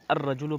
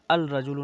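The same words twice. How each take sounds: First: अर्रजुलु with a doubled r and no lam, ar-rajulu; correct sun-letter reading. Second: अल रजुलु with the L sounded before the r, al-rajulu; deliberately wrong al-rajulu; wrong lam reading. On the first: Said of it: "अर्रजुलु पढ़ते हैं". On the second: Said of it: "अल रजुलु नहीं पढ़ते हैं". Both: Shown as a demonstration.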